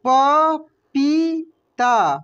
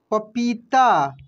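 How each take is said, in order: First: पपीता drawn out very slowly, each syllable separate. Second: Said in the usual way. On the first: Shown as a demonstration. (पपीता को धीरे धीरे बोलिए) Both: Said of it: "क्या पढ़ेंगे हम लोग?".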